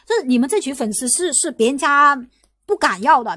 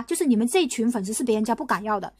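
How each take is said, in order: First: Rising then punching 别人家 and 不敢要 louder; emphatic. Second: Said in the usual way. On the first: Real, not acted. Streamer to fans, stressing 别人家 不敢要 loudly. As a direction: lean hard on 别人家 不敢要.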